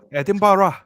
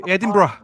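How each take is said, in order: First: Edinburgh ending in "burra"; Edinburgh with the last part opened out to "barra"; extra-syllable ending. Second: Edinburgh ending in a quick "bruh"; Edinburgh with the last part squeezed to "bruh"; two-syllable ending. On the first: Repeats the city name, drawn out. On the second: Saying the city name two ways. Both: Shown as a demonstration.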